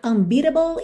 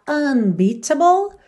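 First: The middle t is a quick flap sound. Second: The middle t is a clear t sound.

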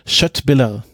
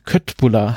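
First: The second vowel is a rounded ü-like sound. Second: The second vowel is a plain German u. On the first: This is closer to the Swedish pronunciation. The speaker calls it right. "das richtig auszusprechen" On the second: This is how someone unfamiliar with Swedish would say it. The speaker calls it wrong. "wenn man ihn jetzt unwissend aussprechen würde"

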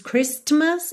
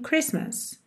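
First: A t sound is pronounced in the middle. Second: No t sound is pronounced in the middle. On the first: The speaker calls it wrong. "A gente não diz Christmas" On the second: The speaker calls it right. "e sim Christmas"

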